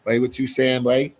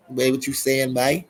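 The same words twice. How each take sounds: First: Put-on light Bahamian accent, teasing; a quick playful Bahamian accent. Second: Put-on Bahamian accent, a bit more pitched up. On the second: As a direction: say it again with a Bahamian lilt. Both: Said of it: "that's that Bahamian accent I just did".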